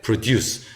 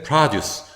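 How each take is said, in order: First: Produce as "pruh-DUCE", slowly; end stress. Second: Produce as "PRAH-duce"; front stress. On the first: Teacher contrasting verb with noun, slow pruh-DUCE for produce. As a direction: reduce the first vowel of produce and stress the second. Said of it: "동사일 땐". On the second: Teacher contrasting noun with verb, produce stressed as PRAH-duce. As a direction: stress the first syllable of produce with open "ah". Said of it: "명사일 땐". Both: Shown as a demonstration.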